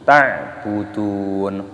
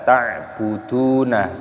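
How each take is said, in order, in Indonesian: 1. Kata ini berakhir pada konsonan mati. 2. Kata ini diakhiri dengan vokal tambahan. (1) "tapi ta'budun" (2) "jangan dibaca ta'buduna"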